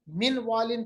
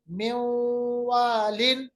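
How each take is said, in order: First: The n sound is kept before the w. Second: The n sound merges into the following w. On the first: The speaker calls it wrong. "मिन वालिन के बजाय" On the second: The speaker calls it right. "क्योंकि हमने नून साकिन को वाव के साथ मिलाया।"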